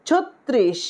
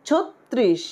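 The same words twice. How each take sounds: The two takes are said the same way.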